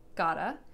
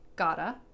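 First: The words are reduced and run together as 'gotta'. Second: The words are reduced and run together as 'gotta'.

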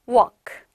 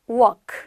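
Both takes have the same delivery.

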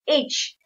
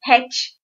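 First: The letter name begins with a vowel sound. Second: The letter name begins with an h sound. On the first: The speaker calls it right. "it's H. So, when I say A, it comes from the letter E" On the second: The speaker calls it wrong. "it's not H"

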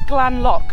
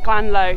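First: The name ends with a k sound. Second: The name ends with an open vowel. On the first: The speaker calls it right. "quick realisation that it's Glanlock" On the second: The speaker calls it wrong. "not Glanlow. So future me has been saying this wrong"

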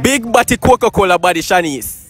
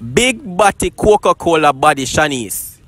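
First: It is said at a fast pace. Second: It is said at a slower pace.

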